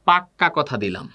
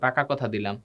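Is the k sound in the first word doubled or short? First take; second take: doubled; short. First: The k sound in the first word is doubled. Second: The k sound in the first word is short. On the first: An emphatic, absolutely certain promise. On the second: A plain firm promise.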